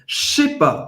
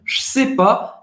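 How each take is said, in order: First: It is said fast, starting with a 'sh' sound. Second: The ne is dropped from the phrase. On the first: "quando você falar rápido, vira até assim... com C H" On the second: "cortar o ne da negação"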